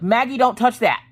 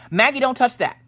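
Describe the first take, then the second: First: Sudden sharp yell, much higher and louder; startled mother yelling at her child. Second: Sudden yell, much higher and louder. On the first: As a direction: blurt it out like you just woke with a start. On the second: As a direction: shout it like waking from a bad dream. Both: Retold or imitated. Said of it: "just that loud".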